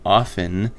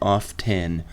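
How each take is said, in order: First: The t sound is silent, rhyming with soften. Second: The t sound is clearly pronounced in the middle. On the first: "I do pronounce the word often and soften in a rhyming manner" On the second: "one of those bigots who says off ten"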